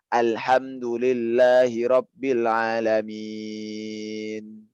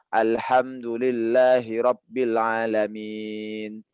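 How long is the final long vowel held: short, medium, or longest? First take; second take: longest; medium. First: The final long vowel is held for six counts. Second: The final long vowel is held for four counts.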